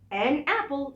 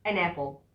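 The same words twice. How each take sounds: First: The article has a full vowel, said separately. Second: The article is short and linked into the noun. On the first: The speaker calls it wrong. "صح؟ لا" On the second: The speaker calls it right. "شفت اتاكلت ازاي ووصلت ازاي وقصرت ازاي؟"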